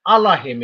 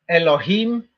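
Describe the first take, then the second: First: The word begins with an 'ah' sound. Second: The word begins with an 'eh' sound. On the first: The speaker calls it right. "So it actually says Allahim" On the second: The speaker calls it wrong. "modern modern Hebrew, how they pronounce it"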